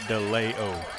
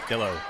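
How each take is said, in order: First: The name's middle sounds like 'lee'. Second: The name's middle sounds like 'la'. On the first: The speaker calls it wrong. "Not DeLeo" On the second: The speaker calls it right. "It's De La O"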